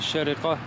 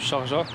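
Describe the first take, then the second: First: The name is said with three syllables. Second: The name is said with two syllables. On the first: The speaker calls it right. "la vraie prononciation c'est Shariqa" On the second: The speaker calls it wrong. "et non Sharja"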